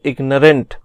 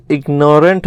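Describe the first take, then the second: First: इग्नोरेंट with a short, reduced middle vowel, IG-nuh-rent; correct pronunciation of इग्नोरेंट. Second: इग्नोरेंट said with a long "nore" in the middle, ig-NORE-ent; mispronounced इग्नोरेंट. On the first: Teacher giving students the proper reading, इग्नोरेंट as IG-nuh-rent. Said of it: "ये होता है इग्नोरेंट". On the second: Teacher showing students the misreading to avoid, इग्नोरेंट as ig-NORE-ent. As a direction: say इग्नोरेंट as if built on "ignore". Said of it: "इसको आप कभी इग्नोरेंट मत पढ़िएगा". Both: Shown as a demonstration.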